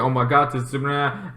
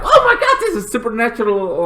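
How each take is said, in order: First: Said in the usual way. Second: Excited fan squeal. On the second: Retold or imitated. Fans spotting something supernatural, giddy squeal.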